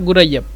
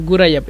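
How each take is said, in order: The two takes are said the same way.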